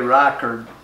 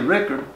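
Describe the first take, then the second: First: The name is said the old German way. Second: The name is said the local family way. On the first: This is how the immigrant ancestors said it. "probably Reichard was the way they said it" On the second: This is how the family says it now. "We we say Rickard"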